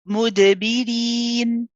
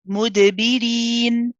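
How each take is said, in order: Both takes have the same delivery.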